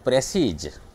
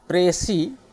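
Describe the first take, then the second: First: प्रेसीज with a buzzing z at the end; wrong form. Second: प्रेसी with silent s at the end; precis pronounced. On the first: Teacher quoting the common mistake. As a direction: say प्रेसीज with the final z. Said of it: "लेकिन गलत से आप बोलते हैं". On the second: Teacher giving the right form of précis. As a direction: say प्रेसी, no final s sound. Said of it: "लेकिन गलत से आप बोलते हैं प्रेसीज". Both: Shown as a demonstration.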